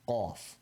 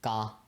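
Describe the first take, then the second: First: The first consonant is sharp and made far back. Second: The first consonant is soft and made further forward. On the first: The speaker calls it right. "very sharp sound with your tongue kind of going back" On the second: The speaker calls it wrong. "getting mixed up with cough"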